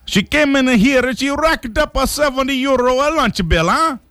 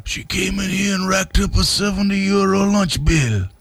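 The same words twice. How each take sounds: First: Much higher, hammed-up Italian accent; Giovanni Capelli. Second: Put-on high Italian-accented gripe; Giovanni Capelli. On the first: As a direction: gripe in exaggerated cartoon Italian. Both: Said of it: "Griped Giovanni Capelli".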